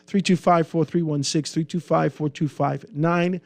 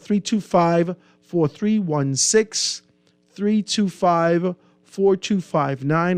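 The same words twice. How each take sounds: First: The number is read at a quicker pace. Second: The number is read at a slower pace.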